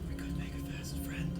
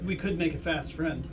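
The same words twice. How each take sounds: First: It is said at a normal, quieter volume. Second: It is said at a louder volume.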